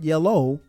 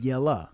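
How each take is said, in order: First: The word ends with an 'oh' sound. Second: The word ends with an 'uh' sound. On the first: The speaker calls it wrong. "Not yellow" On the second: The speaker calls it right. "but yella. Y E L L A"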